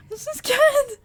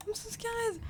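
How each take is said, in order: First: High and louder, frightened; loud panicked wail; scared cry. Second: Higher and softer, frightened; small, scared voice; scared whimper. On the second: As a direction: whimper it under your breath. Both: Real, not acted.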